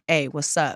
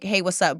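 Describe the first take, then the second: First: It is said in a suggestive, flirtatious tone. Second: It is said as a plain, casual greeting.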